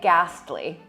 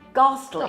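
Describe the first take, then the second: First: It is said with an American pronunciation. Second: It is said with a British pronunciation. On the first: "I'll say ghastly. Sounds so bad" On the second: "but you say ghastly"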